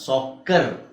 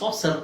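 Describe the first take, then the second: First: The middle consonant is a k sound. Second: The middle consonant is an s sound. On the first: The speaker calls it right. "ಸಿ ನ ಸಾಕರ್ ಅಂತ ಹೇಳ್ತೀವಿ" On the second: The speaker calls it wrong. "ಅದನ್ನ ಸಾಸರ್ ಅಂತ ಹೇಳಲ್ಲ"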